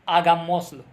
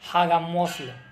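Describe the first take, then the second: First: The initial h is not pronounced. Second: The initial h is pronounced aloud. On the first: The speaker calls it right. "It would be pronounced like hagamoslo. Like there is no H word" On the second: The speaker calls it wrong. "It would not be pronounced like"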